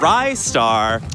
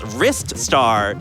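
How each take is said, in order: First: The first syllable sounds like 'rye'. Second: The first syllable sounds like 'wrist'. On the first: The speaker calls it wrong. "not Rye Star" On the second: The speaker calls it right. "it's Wrist Star"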